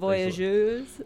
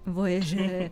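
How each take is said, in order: First: The name is given a fancy, foreign-sounding pronunciation. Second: The name is given a plain, everyday pronunciation. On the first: The speaker calls it wrong. "You don't say it the fancy way" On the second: The speaker calls it right. "just Voyageurs"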